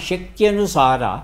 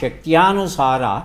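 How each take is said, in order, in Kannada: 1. "shakty" ನಂತರದ ಸ್ವರ ಹ್ರಸ್ವ. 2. "shakty" ನಂತರದ ಸ್ವರ ದೀರ್ಘ. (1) "ಎರಡನೇ ವಾಕ್ಯ ಸರಿಯಾಗಿದೆ" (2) "ಅದು ಶಕ್ತ್ಯ ಆ ಅರ ದೀರ್ಘ ಇದೆ"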